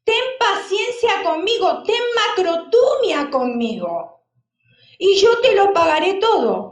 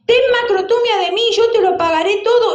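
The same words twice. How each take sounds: First: A mildly raised plea for patience; pleading servant. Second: Higher, louder, fast desperate begging; urgent plea. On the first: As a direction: beg the master for more time, only lightly acted. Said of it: "le rogaba diciendo". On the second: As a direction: cry out to the master for mercy. Servant's plea retold more urgently. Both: Acted.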